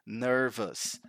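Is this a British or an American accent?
American. The word is said in an American accent.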